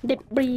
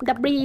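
First: "เดบรี" with an ay first vowel, silent S; debris as day-bree. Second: "ดับรี" with short first vowel, silent S; debris as da-bree. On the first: Player showing viewers the other accepted reading, day-bree pronunciation. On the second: Player showing viewers an accepted reading, da-bree pronunciation. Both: Shown as a demonstration. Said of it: "มันอ่านได้สองอย่างค่ะ".

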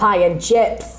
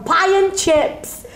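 First: Lightly mocked broad northern accent; a touch of broad northern, at everyday pitch. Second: Put-on high, drawn-out broad northern accent. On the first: Saying she is northern but not that broad, mild mock northern accent. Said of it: "I'm, I'm northern". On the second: Telling how broad she became at Disney, exaggerated northern accent. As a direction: go hugely broad northern, stretching each word. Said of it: "I became so broad".

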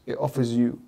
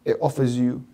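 The two takes are said the same way.

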